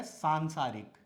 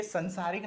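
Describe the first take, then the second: First: सांसारिक with a long first vowel, saan-saarik; correct pronunciation. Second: संसारिक with a short first vowel, san-saarik; common mispronunciation. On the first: Teacher giving the right form, सांसारिक with long "saan". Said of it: "क्या होता है?". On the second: Teacher showing the wrong form, संसारिक with short "san". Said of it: "संसारिक नहीं होता है". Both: Shown as a demonstration.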